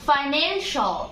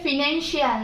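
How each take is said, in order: First: The ending is said as 'shal'. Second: The ending is said as 'shee-al'. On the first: The speaker calls it right. "এটা হবে" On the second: The speaker calls it wrong. "এটা ফিনান্সিয়াল না"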